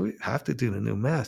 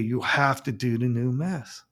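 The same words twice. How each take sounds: First: "We" stressed with a rise, "have" unstressed. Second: "have" pressed as the command, "you" unstressed; stress on have. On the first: Priest correcting the bishop's "you" to "We", rising on "We". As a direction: correct him by lifting "We". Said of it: "I said". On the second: Bishop ordering the priest: "have" stressed, softer. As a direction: land the weight on "have". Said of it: "He goes". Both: Retold or imitated.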